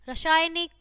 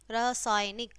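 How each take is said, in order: First: रासायनिक said "rashaaynik", with "sh"; wrong sibilant. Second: रासायनिक with a plain "s", not "sh"; lower, softer रासायनिक, clean "s" in the middle; correct sibilant. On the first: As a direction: put "sh" for the "s" in रासायनिक. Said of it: "पहले हमारी अशुद्ध शब्द है". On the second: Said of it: "और फिर शुद्ध है". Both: Shown as a demonstration.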